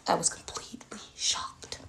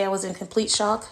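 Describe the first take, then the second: First: Whispered, stunned repeat; hushed emphasis. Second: Said in the usual way. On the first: Real, not acted. Mother stressing her shock at the Lego church, hushed whisper.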